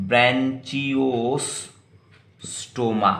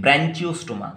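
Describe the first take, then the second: First: Branchiostoma stretched out very slowly, each syllable drawn; slow careful pronunciation. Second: Said in the usual way. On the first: Shown as a demonstration. Teacher drawing out branchiostoma so students learn it. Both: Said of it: "और एक नाम से बोला जाता है".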